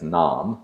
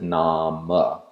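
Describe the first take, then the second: First: The word ends in a consonant sound. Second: The word ends in a short vowel sound. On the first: This is the everyday modern prose form. "pronounced in modern prose simply as nam" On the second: This keeps the meter correct in early poetry. "pronounce the inherent vowel at the end"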